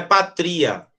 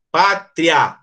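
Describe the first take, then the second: First: "patria" with the stress moved onto the I; wrong stress. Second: "Pátria" stressed on PÁ, "tria" one gliding syllable; correct diphthong. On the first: Teacher shows class what it is not, wrong stress on "patria". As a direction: say "patria" as pa-TRI-a, vowels split. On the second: Teacher models "Pátria" for the class, correct diphthong. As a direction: say "Pátria" as PÁ-tria, ending joined. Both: Shown as a demonstration. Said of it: "Não é patria".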